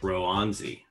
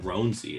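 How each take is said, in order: First: The first vowel is long, as in 'road'. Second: The first vowel is short, as in 'on'. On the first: The speaker calls it right. "it's like Roanzi" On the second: The speaker calls it wrong. "everybody's just mispronouncing his name incorrectly"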